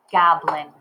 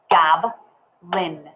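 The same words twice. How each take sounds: First: Said in the usual way. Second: "Goblin" broken as gob, pause, lin; clapped syllables. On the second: Shown as a demonstration. Teacher clapping Goblin for learners, split into syllables. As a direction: clap out "Goblin" in two even beats. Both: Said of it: "Let's clap it".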